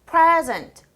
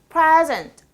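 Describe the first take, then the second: First: The stress is on the first syllable. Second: The same.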